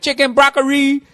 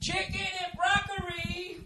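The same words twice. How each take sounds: First: High, clipped mock Asian accent on "broccoli". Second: Very high, soft, stretched mock Asian accent on "Chicken and broccoli". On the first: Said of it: "can't say broccoli without an Asian accent". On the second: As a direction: say "broccoli" the way the takeout guy did, high and sing-song. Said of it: "I can't say broccoli without an Asian accent".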